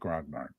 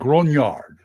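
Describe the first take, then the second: First: The word is said with English pronunciation. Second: The word is said with French pronunciation. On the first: The speaker calls it wrong. "I'm going to stick with Grognard" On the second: The speaker calls it right. "it's French. You're supposed to say Grognard"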